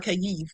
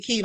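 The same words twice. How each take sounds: First: Kyiv said in two syllables, kai-EEV; two-beat Kyiv, stress on the second; own pronunciation. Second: Kyiv said as one syllable, KEEV; one-beat Kyiv with a long ee; other people's pronunciation. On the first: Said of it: "I call it Kyiv". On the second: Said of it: "some people call it Kyiv". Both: Shown as a demonstration.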